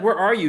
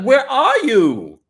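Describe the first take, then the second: First: Brisk, raised-pitch imitation of a demand; retold demand. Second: Loud, high, drawn-out demand; demanding yell. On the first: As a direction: quote the wife's question quickly, louder. Same question retold more briskly. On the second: Retold or imitated. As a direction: stretch it out in a mock-furious holler. Acting out wife calling husband.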